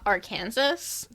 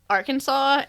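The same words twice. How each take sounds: First: The ending sounds like the word Kansas. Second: The ending does not sound like Kansas. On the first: This is how people do not say it. "and not Arkansas?" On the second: This is how people actually say it. "why do we pronounce Arkansas Arkansas"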